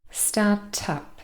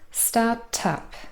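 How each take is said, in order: No difference in how they are said.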